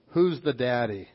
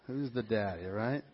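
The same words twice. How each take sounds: First: Said in the usual way. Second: A low, hushed repeat of the headline; quiet aside. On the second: Retold or imitated.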